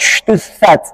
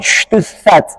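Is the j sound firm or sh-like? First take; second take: sh-like; sh-like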